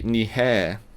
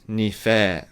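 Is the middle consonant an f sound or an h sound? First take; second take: h; f. First: The middle consonant is an h sound. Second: The middle consonant is an f sound. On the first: This form is used in some regions. "Some people say nihe" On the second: This is the form the speaker prefers. "I personally prefer nife"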